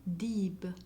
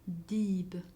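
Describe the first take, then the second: The two takes are said the same way.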